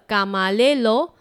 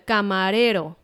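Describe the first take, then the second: First: The r is replaced by an l-like sound. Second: The r is a single quick tongue tap. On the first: The speaker calls it wrong. "一个是错误的camarero" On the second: The speaker calls it right. "一个是正确的camarero"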